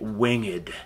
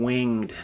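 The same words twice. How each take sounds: First: The word is said as two syllables. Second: The word is said as one syllable.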